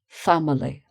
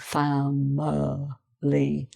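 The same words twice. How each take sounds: First: The word is said at normal speed. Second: The word is said slowly and drawn out.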